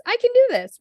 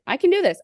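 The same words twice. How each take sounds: First: "I can do this" pushed much higher and louder, all in; stronger self pep talk. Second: Higher, psyching herself up; self pep talk. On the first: Leaving work, she hypes herself up even harder, much higher. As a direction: shout it to convince yourself. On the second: Leaving work, she pumps herself up with rising excitement. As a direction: talk yourself into courage. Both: Retold or imitated.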